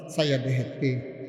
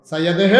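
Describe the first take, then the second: First: Said in the usual way. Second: Preacher belting সাইয়া দেহে; stretched out repeat. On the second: Shown as a demonstration. Preacher repeating the quote to the crowd, loud and rising.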